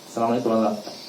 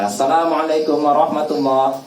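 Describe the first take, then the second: First: It is said softly. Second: It is said loudly.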